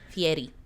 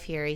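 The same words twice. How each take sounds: First: The r is a quick tap, like soft d. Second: The r is a plain English r. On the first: The speaker calls it right. "Say it more like a soft D" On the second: The speaker calls it wrong. "I keep m- mispronouncing it"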